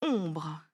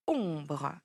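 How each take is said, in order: First: Slow, careful dictation of Ombre, each sound drawn out and low. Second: Said in the usual way. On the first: Shown as a demonstration. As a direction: say Ombre slowly and low for a pupil to write. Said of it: "on y va". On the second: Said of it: "c'est un mot composé".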